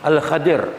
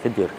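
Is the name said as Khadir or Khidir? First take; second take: Khadir; Khidir. First: The name is said with an 'a' vowel: Khadir. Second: The name is said with an 'i' vowel: Khidir. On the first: This is the proper original pronunciation. "dia sebut tanya betul macam ni" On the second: This is how Malay speakers say it. "cuma orang Melayu sebut Khidir"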